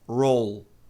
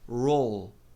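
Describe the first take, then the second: Both takes have the same delivery.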